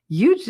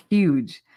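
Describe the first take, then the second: First: "Huge" as YOOGE, starting on a Y; dropped H. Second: "Huge" with a careful H; H pronounced. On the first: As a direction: skip the H in "Huge". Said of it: "It's just too much effort". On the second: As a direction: sound out the H in "Huge". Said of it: "pronounce the H for that". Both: Shown as a demonstration.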